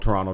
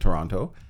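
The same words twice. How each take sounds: First: The second T is dropped entirely. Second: The second T is clearly pronounced. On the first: "You keep saying Toronto, There's no second T" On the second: "I pronounce it Toronto"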